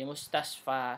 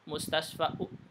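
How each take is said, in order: First: The word ends on a long 'a' vowel. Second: The word ends with an added 'u' vowel. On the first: The speaker calls it right. "Di mustasfa seperti itu" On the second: The speaker calls it wrong.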